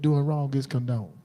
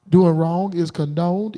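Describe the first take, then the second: First: Said in the usual way. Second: "Doing wrong is condoned" slow, each word leaned on; "condoned" drawn out and weighted; slow emphasis. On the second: Real, not acted. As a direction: lay it down slowly like a verdict. Slow emphatic first statement.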